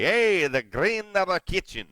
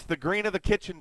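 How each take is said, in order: First: Loud, high, slow mock Irish accent; stretched-out fake Irish lilt, pitched up; bad Irish accent. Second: Said in the usual way. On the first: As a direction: put on a hammy, badly done Irish brogue. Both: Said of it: "that's a bad Irish accent".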